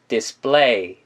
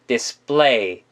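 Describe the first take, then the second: First: The p is a tense, unaspirated sound. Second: The p is a tense, unaspirated sound.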